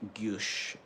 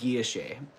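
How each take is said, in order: First: It is said with a French pronunciation. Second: It is said with a plain English pronunciation. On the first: This is the way a French-speaking expert says it. "That's how you say it in French" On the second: This is the way the speaker learned it. "I've always said guilloche"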